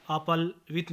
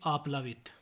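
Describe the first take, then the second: First: आपालवित with the long aa before l; mispronunciation. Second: Said in the usual way. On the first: Shown as a demonstration. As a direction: say aa-paal-vit for आपालवित. (आपालवित, ल से पहले आ) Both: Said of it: "नहीं".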